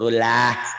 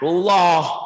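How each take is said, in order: First: The L sound is light and thin. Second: The L sound is heavy and thick. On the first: The speaker calls it wrong. "Kenapa jadi rulah?" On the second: The speaker calls it right. "Kan tebel"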